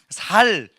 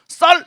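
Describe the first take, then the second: First: The first consonant is a plain s. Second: The first consonant is a tense s. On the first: The speaker is from Gyeongsang. The speaker calls it wrong. "쌀이 아니고 살" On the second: The speaker can say it the standard way. The speaker calls it right. "제가 쌀 이렇게 한 거예요"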